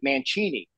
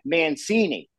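First: The name is said the Italian way. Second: The name is said the American way. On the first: This is how it is said in Italy. "in Italy, they pronounce it Mancini" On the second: This is how it is said in America. "when she got here, it was like Mancini"

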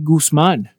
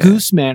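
First: The name is said with a Spanish pronunciation. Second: The name is said with an American pronunciation. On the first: The speaker calls it right. "your name is actually Guzman in Spanish" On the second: The speaker calls it wrong. "I'm in US and everyone's like"

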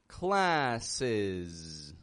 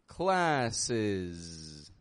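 The two takes are said the same way.

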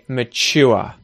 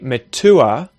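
First: The T is said as a 'ch' sound. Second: The T is said as a hard T sound. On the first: The speaker calls it right. "I'll say mature" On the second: The speaker calls it wrong. "I won't say mature"

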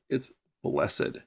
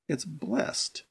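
First: It is said the way the adjective sounds. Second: It is said the way the verb sounds. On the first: It describes a state of being. "If it's an adjective, it's blessed" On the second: It is the past tense of an action. "If it's a verb, it's blessed"

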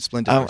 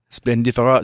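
First: It is said with an American Midwest accent. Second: It is said with a French accent. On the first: "We'll just go with your American Midwest accent" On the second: "No, that's French"

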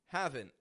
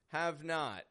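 First: It is contracted with a stopped final T. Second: It is said in full as two words.

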